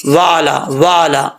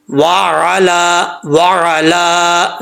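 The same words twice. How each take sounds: First: Quick वाला run together without ain; missing ain. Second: Very slow वाला as wa-'a-laa with throaty ain; clear ain. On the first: Retold or imitated. Teacher mimics people's mistake, mispronounced वाला. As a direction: merge wa and a into plain वाला. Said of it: "ऐसा नहीं पढ़ना". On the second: Shown as a demonstration. Teacher corrects the mistake, careful tajweed. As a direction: squeeze an ain into वाला, hold the last vowel. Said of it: "आइन को हमज़ा पढ़ जाते हैं".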